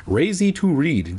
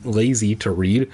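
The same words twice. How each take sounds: First: "Lazy" said with an R, as "Razy"; "Lazy" mock-mispronounced to start with R. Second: Said in the usual way. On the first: Shown as a demonstration. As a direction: swap the L in "Lazy" for an R. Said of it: "that was racist".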